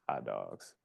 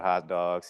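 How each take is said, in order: First: It is said flatly and calmly. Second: It is yelled loudly.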